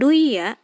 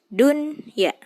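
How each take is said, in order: First: The n sound in the middle is dropped. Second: The n sound in the middle is clearly pronounced. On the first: The speaker calls it wrong. "Harus jelas nun sukunnya terbaca. Jadi bukan duya" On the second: The speaker calls it right. "tapi dunya"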